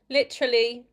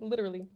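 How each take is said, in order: First: It is said in a British accent. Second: It is said in an American accent. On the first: "in British pronunciation" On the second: "American pronunciation"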